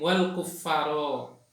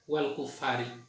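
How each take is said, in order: First: The word ends with an 'a' vowel. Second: The word ends with an 'i' vowel. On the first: The unbelievers are the object of the prohibition. "membaca dengan bacaan nasab" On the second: The unbelievers are joined to the People of the Book. "ada yang membaca jar lafad kufar"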